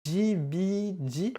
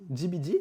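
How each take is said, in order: First: High, drawn-out letter names; slow questioning spelling. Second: Said in the usual way. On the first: Real, not acted. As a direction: stretch each letter into a question. Épelle lentement le pseudo. (lettres étirées, très aiguës, interrogatives)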